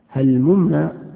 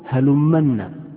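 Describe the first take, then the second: First: The two m sounds are pronounced separately. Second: The two m sounds merge into one doubled m. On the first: The speaker calls it right. "بالفك يعني أن تفك الميم عن الميم" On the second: The speaker calls it wrong. "لأن بعضهم يقول هلمنا، هذا غلط"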